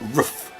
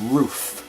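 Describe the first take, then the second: First: The vowel is a short uh-like sound. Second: The vowel is a long oo sound. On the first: This is how Americans say it. The speaker calls it wrong. "Not roof. That would be R U F" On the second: This is how Canadians say it. The speaker calls it right. "It's roof. Double O"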